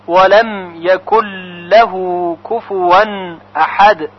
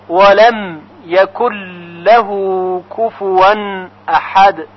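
No difference in how they are said.

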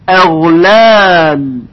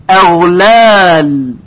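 Both takes have the same delivery.

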